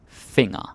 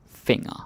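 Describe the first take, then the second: The two takes are said the same way.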